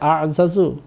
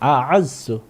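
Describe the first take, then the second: First: The two z sounds are separated by a vowel. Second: The two z sounds merge into one doubled z. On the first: The speaker calls it wrong. "না" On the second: The speaker calls it right. "ঠিক এইভাবে"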